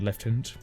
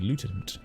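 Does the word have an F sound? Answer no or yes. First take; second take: yes; no. First: The word is said with an F sound. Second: The word is said without an F sound. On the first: "I don't see the F in it, so I don't say um lieutenant" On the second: "I say lieutenant"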